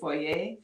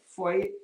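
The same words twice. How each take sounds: First: It is said the Canadian way. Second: It is said the American way. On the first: "and we say foyer" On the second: "in the U S, a lot of things, you say things like foyer"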